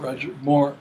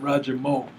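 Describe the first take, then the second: First: It is said in a standard accent. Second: It is said in an Ebonics accent.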